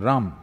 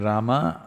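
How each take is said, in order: First: The word is said without its final syllable. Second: The word is said with its final syllable.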